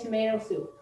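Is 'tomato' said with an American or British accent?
American. Tomato is said with an American accent.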